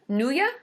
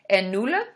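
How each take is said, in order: First: Questioning "nulla", the double L turned into a Y. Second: Questioning "nulla", the double L read as one L; double L as plain L. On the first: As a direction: say "nulla" as NOO-ya. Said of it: "double L is Y in Spanish". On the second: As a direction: say "nulla" with a plain L sound, NOO-la. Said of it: "Is it nulla or nulla?". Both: Shown as a demonstration.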